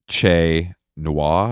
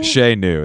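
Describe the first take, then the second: First: The second word sounds like 'nwar'. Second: The second word sounds like 'noo'. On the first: The speaker calls it wrong. "I always say it wrong" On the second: The speaker calls it right. "is probably how you say it"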